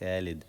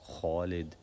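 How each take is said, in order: First: The first sound is light and thin. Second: The first sound is heavy and deep. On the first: The speaker calls it wrong. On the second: The speaker calls it right. "this kha is a heavy letter. We say kha, Khalid"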